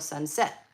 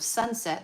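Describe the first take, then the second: First: The stress is on the second syllable. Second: The stress is on the first syllable. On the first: This is how it is done in the song. "they go sunset. The, the accents on the later part of the words" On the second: This is the usual everyday pronunciation. "Instead of sunset"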